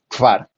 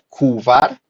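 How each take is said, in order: First: K and v are said together with no vowel. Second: A u vowel is inserted between k and v. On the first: The speaker calls it right. "aquí la pronunciación es kvar. Nuevamente" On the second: The speaker calls it wrong. "No se pronuncia kuvar"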